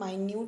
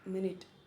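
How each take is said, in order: First: It is said as my-NOOT, two long vowels. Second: It is said as MIN-it, short vowels. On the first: Something is very tiny. "इसे हम माइन्यूट भी बोलते हैं" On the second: It is a unit of time. "पर इसी को हम मिनट भी बोलते हैं"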